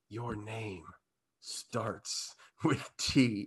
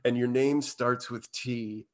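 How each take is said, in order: First: It is said slower and quieter. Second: It is said at normal pace and loudness.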